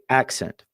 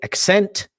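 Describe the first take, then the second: First: The stress is on the first syllable. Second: The stress is on the second syllable. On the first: The speaker calls it right. "The first part of that word will always be spoken more loudly" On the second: The speaker calls it wrong. "You don't say accent"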